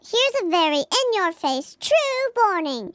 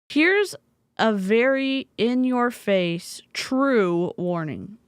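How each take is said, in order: First: It is read in a put-on Baby Snark voice. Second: It is read in a normal voice.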